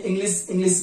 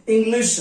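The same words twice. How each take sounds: First: इंग्लिश with a plain s at the end, "inglis"; इंग्लिश ending in a thin स, not श; wrong pronunciation. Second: इंग्लिश ending in a full sh sound, "inglish"; इंग्लिश with a clear श at the end; correct pronunciation. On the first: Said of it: "उच्चारण बहुत लोग गलत करते हैं". (इंग्लिश को स से बोलना) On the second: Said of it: "बड़ा वाला श इस्तेमाल करेंगे". (इंग्लिश को श से बोलना) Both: Shown as a demonstration.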